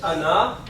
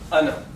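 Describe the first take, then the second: First: The final vowel is drawn out long. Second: The final vowel is kept short. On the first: The speaker calls it wrong. "This is written as Ana" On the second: The speaker calls it right. "but it is pronounced as Ana. Okay, noon is kept short"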